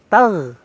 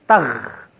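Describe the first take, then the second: First: The final consonant is a soft gh sound. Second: The final consonant is a harsh kh sound. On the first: The speaker calls it right. "lembut, ghain" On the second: The speaker calls it wrong.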